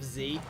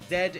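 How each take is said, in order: First: The letter is pronounced as zee. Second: The letter is pronounced as zed. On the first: This is how the speaker says it. "It's Z" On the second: This is how people in the UK say it. "Z instead of Z"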